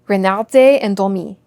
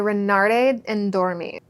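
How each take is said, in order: First: The name is said with a French accent. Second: The name is said with an English accent.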